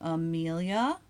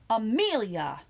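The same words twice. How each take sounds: First: It sounds like a neutral call to speak next. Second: It sounds like a scolding warning to behave. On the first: It is your turn to talk. "as in you talk next" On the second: Behave and stop doing that. "You can also use it to mean behave"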